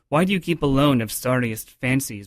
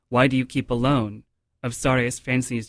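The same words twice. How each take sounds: First: There is no pause after "alone". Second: There is a pause after "alone". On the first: The thought carries on into the next line. The speaker calls it right. "to deliver the sentence itself, not just the line" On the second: The thought stops at the end of the line. The speaker calls it wrong. "So instead of saying"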